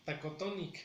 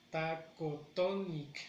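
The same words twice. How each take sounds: First: Said in the usual way. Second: Slow "Tacotonic", leaning on the TO; measured taco-TO-nic for learners; stress on third syllable. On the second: Shown as a demonstration. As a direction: draw out "Tacotonic" with weight on TO. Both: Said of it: "en la tercera sílaba".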